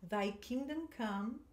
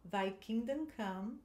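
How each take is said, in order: First: Slow, careful pronunciation; teacher modelling a short phrase; slow model line. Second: Slow, careful repeat; teacher repeating a short phrase; model line again. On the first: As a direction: give it slowly to echo. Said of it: "Agora esse trechinho aqui". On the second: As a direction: say it slowly once more. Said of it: "De novo". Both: Shown as a demonstration.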